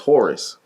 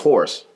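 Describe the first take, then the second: First: The name is said in full as Horace. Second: The name sounds just like the word horse. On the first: This is the real given name. "but my name is Horace" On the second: This is the pseudonym, matching how people usually say it. "My pseudonym is Horse"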